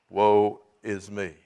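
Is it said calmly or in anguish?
calmly. It is said calmly, without emotion.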